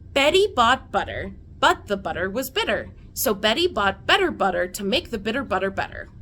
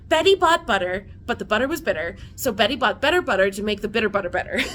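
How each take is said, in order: First: It is said at normal speed. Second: It is said extra fast.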